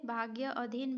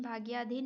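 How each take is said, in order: First: भाग्य अधीन as two separate words; split compound. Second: Said in the usual way. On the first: Shown as a demonstration. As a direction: sound both vowels apart in भाग्य अधीन. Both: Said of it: "भाग्याधीन ये सही है".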